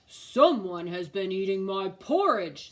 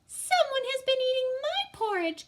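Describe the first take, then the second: First: It is said in a great big voice. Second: It is said in a wee small voice.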